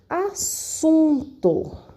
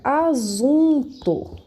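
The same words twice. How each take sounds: First: The middle consonant is a hissing s sound. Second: The middle consonant is a buzzing z sound. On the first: The speaker calls it right. "eu quero escrever assunto" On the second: The speaker calls it wrong. "Se eu escrever com um S só, fica"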